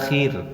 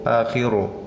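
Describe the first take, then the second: First: The word ends cleanly on the consonant r. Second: The word ends with an added u vowel. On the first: The speaker calls it right. "Bacanya akhir" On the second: The speaker calls it wrong. "tidak akhiru"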